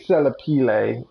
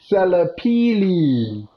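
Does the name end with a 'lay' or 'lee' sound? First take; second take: lay; lee. First: The name ends with a 'lay' sound. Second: The name ends with a 'lee' sound. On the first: The speaker calls it wrong. "That's almost correct. So instead of lay" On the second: The speaker calls it right. "it's Lee? Oh"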